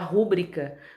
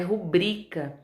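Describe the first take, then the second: First: The stress is not on the middle syllable. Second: The stress is on the middle syllable. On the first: The speaker calls it wrong. "muita gente fala, chama de fala rúbrica" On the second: The speaker calls it right. "mas o correto é rubrica"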